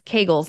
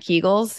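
First: The first vowel rhymes with the vowel in bagels. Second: The first vowel does not rhyme with bagels. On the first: The speaker calls it right. "It rhymes with bagels" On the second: The speaker calls it wrong. "not Kegels"

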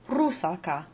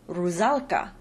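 First: The middle s sound is unvoiced. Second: The middle s sound is voiced like z. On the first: The speaker calls it right. "the stressed syllable is always the first syllable, and the intervocalic S's are unvoiced" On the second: The speaker calls it wrong. "or as the Germans say"

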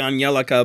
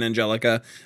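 First: The name is said with a foreign pronunciation. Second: The name is said with an English pronunciation. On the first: "it might be Angelica" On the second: "I'm going to say it with the English pronunciation"

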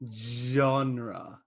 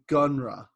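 First: The word begins with a J sound. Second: The word begins with a hard G sound. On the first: "It's almost like the way you say it starts with a J" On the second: "As opposed to G, which would be gunra"

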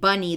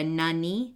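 First: The word begins with a b sound. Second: The word begins with an n sound. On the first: The speaker calls it right. "instead of saying bunny" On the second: The speaker calls it wrong. "they call it a nunny"

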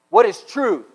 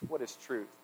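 First: It is said in an angry tone. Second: It is said in a sarcastic tone.

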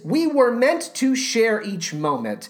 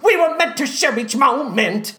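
First: It is said plainly and calmly. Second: It is said in a manic, erratic way.

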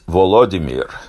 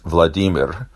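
First: The name is said in the Ukrainian way. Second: The name is said in the Russian way. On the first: "in Ukrainian, it's Volodymyr" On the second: "In Russian, it's Vladimir"

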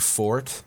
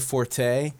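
First: The word is said with one syllable. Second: The word is said with two syllables. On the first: The speaker calls it right. "It's actually fort" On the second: The speaker calls it wrong. "that's not the correct pronunciation"

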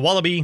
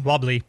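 First: The word is said fully with three syllables. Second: The word is squeezed into two syllables.

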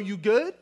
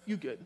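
First: The question sounds threatening and confrontational. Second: The phrase sounds dismissive and shutting down. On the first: The speaker is challenging the listener. "this could be a threatening question" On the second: The speaker wants the other person to stop talking. "In other words, stop talking"

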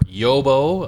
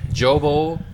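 First: The name begins with a Y sound. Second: The name begins with a J sound. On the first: "I believe the correct pronunciation is Yobo" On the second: "Jobo or Yobo"

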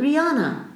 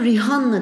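First: The name is said the English way. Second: The name is read the Turkish way. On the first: The speaker calls it right. "Hayır. Kızın adı …" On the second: The speaker calls it wrong. "Bizler onu … diye okuyoruz"

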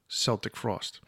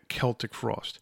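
First: Celtic begins with a soft S sound. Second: Celtic begins with a hard K sound. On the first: This follows the basketball team's name. The speaker calls it wrong. "We were so used to playing the Boston Celtics that we always called them Celtic Frost" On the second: This is how the band says its own name. The speaker calls it right. "we didn't call it Celtic Frost"

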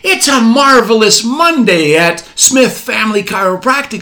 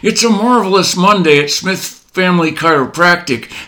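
First: The greeting sounds warm and cheerful. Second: The greeting sounds flat and stressed. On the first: The speaker is relaxed and glad to help. The speaker calls it right. "instead of saying" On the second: The speaker is overwhelmed and under pressure. The speaker calls it wrong. "You might say"

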